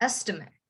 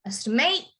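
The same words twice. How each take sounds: First: "estimate" stressed at the start, dropping to a short "mit"; noun stress. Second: "estimate" rising on a full final "ate"; verb stress. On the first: Teacher contrasting noun with verb, stress on the beginning. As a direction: hit the start of "estimate" and let the weak ending fall low and soft. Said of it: "you have to emphasize the beginning". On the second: Teacher contrasting verb with noun, stress on the end. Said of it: "you have to emphasize the end". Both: Shown as a demonstration.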